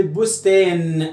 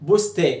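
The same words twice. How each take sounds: First: "بستان" drawn out with the last n held; final nun sounded. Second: "بستا" ending on the long vowel, n missing; nun removed. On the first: Teacher contrasts the word with fariiq, final n held. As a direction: sound "bustaan" fully, slowly, to the n. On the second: Teacher shows the nun is original, final n dropped. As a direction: say "bustaa" without its last n. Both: Shown as a demonstration. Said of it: "شيل النون".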